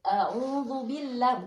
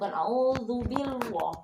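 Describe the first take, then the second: First: The l sound is light and thin. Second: The l sound is heavy and thick. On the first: The speaker calls it right. "dibaca tipis" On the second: The speaker calls it wrong. "tidak boleh dibaca tebal"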